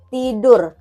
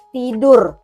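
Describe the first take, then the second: First: An Indonesian accent with a clear final R. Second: The same.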